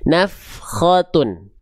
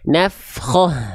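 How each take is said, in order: First: The word ends in a t sound plus un. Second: The word ends in a plain h sound. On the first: The reading continues past this word. "kalau kita lanjut maka dibaca ta dengan keadaan harokatnya" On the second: The reader stops on this word. "Kalau kita berhenti jadinya hak besar sukun"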